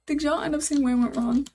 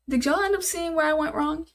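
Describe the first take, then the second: First: Asked through a laugh; laughing question to chat. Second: Said in the usual way. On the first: Real, not acted. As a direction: laugh at your own blunder while asking. Laughs at own mistake. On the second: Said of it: "I'm pissed".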